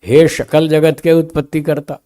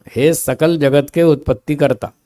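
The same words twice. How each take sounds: First: शकल said with "sh", shakal; wrong sh sound. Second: सकल said with a clean dental "s". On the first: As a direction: deliberately mispronounce सकल as शकल. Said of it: "सकल की जगह शकल कर दिया". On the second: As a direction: hit the स of सकल, sakal. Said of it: "संसार वाला स बोलेंगे ना". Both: Shown as a demonstration.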